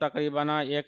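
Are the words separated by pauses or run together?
run together. The words are run together without a pause. The speaker calls it wrong. "ये नहीं बोलते हैं"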